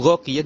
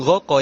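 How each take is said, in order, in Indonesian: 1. Kata itu berakhir dengan bunyi i-ya. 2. Kata itu berakhir dengan bunyi a biasa. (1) "Ra'aitu ghaqiya" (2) "bukan ghaqa ya"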